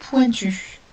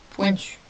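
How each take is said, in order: First: Prononcer pointu en détachant bien; mot dicté. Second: Said in the usual way. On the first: Shown as a demonstration. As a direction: pointu articulé clairement pour la dictée. (pointu, articulé avec soin) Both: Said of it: "il s'agit du mot".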